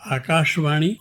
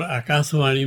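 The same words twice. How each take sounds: First: First आकाशवाणी with a clear sh, "akaash-vani"; sh against s. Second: Second आकाशवाणी with a plain s, "akaasvani". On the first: Poet contrasting two pronunciations, this आकाशवाणी with a clear sh. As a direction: sound a full sh in आकाशवाणी. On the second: Poet contrasting two pronunciations, this आकाशवाणी with s for sh. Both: Shown as a demonstration. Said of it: "में बड़ा फर्क है".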